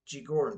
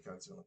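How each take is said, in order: First: It is said with a Japanese pronunciation. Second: It is said with an English pronunciation. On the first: "that's how it's pronounced, I believe, in Japanese" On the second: "we say Godzilla in English"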